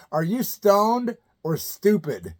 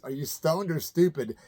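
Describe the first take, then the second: First: Reading the card. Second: Said in the usual way. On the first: Shown as a demonstration. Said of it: "I had a card that said".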